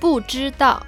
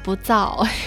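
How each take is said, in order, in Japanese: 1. 三音節として、はっきり発音されています。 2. 二音節に縮めて発音されています。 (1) "最初は、" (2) "三音節が二音節になっちゃった"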